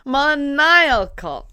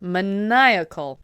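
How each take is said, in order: First: Maniacal slow, high and loud, stressed on the second syllable; repeating after Siri. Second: Maniacal said slowly with a clear falling tune; repeating again. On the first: Copying Siri's maniacal, drawn out and loud. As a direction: echo maniacal back slowly and loudly. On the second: Copying Siri's maniacal once more, slowly. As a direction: repeat maniacal, slow and firm. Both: Shown as a demonstration.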